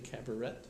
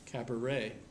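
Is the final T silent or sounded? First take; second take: sounded; silent. First: The final T is pronounced. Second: The final T is not pronounced. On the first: The speaker calls it wrong. "you don't say cabaret" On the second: The speaker calls it right. "T on the end is usually silent"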